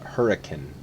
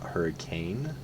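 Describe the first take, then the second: First: It is said the British-English way. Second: It is said the common American way. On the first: The speaker calls it right. "the original English, uh, like British English Hurricane" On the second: The speaker calls it wrong. "not Hurricane"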